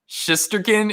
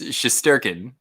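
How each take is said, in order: First: The stress is not on the second syllable. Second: The stress is on the second syllable. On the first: The speaker calls it wrong. "It's not it's not Shisterkin" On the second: The speaker calls it right. "it's Shisterkin"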